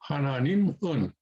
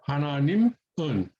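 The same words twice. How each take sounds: First: There is a break before the final syllable. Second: There is a break before the final syllable.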